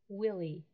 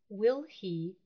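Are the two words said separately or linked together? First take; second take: linked; separately. First: The two words are linked into one. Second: The two words are said separately and precisely.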